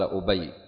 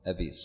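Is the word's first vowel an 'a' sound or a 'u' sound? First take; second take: u; a. First: The first vowel is a 'u' sound. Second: The first vowel is an 'a' sound. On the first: It names a person called Ubayy. The speaker calls it wrong. "عندنا قال أبي، خطأ" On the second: It means my father. The speaker calls it right. "صوب مفتوح الهمزة"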